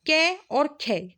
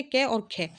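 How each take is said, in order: First: कै and खे drawn out slowly, each sound clear; slow, spelled-out letters. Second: Said in the usual way. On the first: Shown as a demonstration. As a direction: say कै और खे slowly for students to copy. (धीरे-धीरे, साफ़ उच्चारण) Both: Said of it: "देखो, इस तरह से इनकी पहचान".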